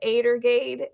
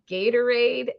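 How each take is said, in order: First: The word begins with a vowel sound. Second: The word begins with a G sound. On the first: This is how a small child said it. The speaker calls it wrong. "she just now figured out that Adergade" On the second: This is the usual adult way to say it. The speaker calls it right. "was actually pronounced Gatorade"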